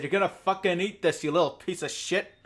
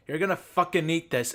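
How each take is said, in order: First: Higher, louder hammed-up threat; mock gunpoint threat. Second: Shouted mock threat, higher and louder; mock angry threat. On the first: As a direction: snarl it like a thug with a gun. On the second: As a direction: bark it like a bully forcing food. Mock threat in imagined scene.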